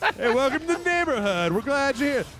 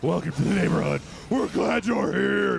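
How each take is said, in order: First: It is said in a friendly, normal voice. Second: It is said in an intense, spooky voice.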